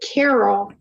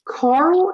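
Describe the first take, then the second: First: The name is said with two syllables. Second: The name is said with one syllable. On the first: The speaker calls it wrong. "I read it as Carol Edward Cole" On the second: The speaker calls it right. "I think it's actually Carl Edward Cole"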